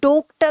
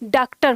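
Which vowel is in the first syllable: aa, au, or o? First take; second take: o; aa. First: The first vowel is a closed o. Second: The first vowel is a long open aa. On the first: "ओ। लेकिन अब हम इसका उच्चारण करेंगे" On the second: "इसका उच्चारण क्या हो गया"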